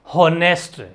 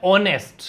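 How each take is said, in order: First: "हॉनेस्ट" with the initial H sounded; mispronounced "हॉनेस्ट", H not silent; wrong pronunciation. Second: "ऑनेस्ट" with a silent H; correct pronunciation. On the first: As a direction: say "हॉनेस्ट" with an audible H up front. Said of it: "कुछ नहीं होता हॉनेस्ट". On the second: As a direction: begin "ऑनेस्ट" straight on the O vowel. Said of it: "ये होता है ऑनेस्ट". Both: Shown as a demonstration.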